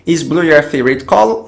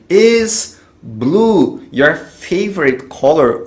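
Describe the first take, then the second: First: Said in the usual way. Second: Pergunta em inglês lenta e articulada; bem devagar, didático. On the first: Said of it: "Vamos dar uma olhada?". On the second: Shown as a demonstration. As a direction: dite devagar como professor. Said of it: "vou colocar ele na frente do sujeito". (pergunta lenta para o aluno repetir)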